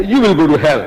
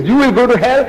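First: Answering retort in usual pitch, falling at the end; imitated counter-retort. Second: Higher-pitched retort, rising at the end; imitated opponent's retort. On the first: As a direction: answer back firmly, landing the ending. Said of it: "We say". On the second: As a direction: throw it back as the other side, pitched up. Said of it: "He says".

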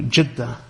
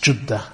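First: Said in the usual way. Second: "Jeddah" said with a short u, Juddah; alternative pronunciation. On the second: Shown as a demonstration. Lecturer gives the other pronunciation of "Jeddah", with a u. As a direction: say "Jeddah" as JUD-dah, u in the first syllable. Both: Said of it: "which is also pronounced".

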